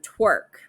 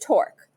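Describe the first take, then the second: First: The vowel sounds like 'er' in 'her'. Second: The vowel sounds like 'or' in 'for'. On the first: The speaker calls it wrong. "had a slight accent and therefore uh, pronounced this word twerk" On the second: The speaker calls it right. "but it is torque"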